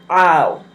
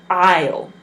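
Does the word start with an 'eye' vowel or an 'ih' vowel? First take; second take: eye; eye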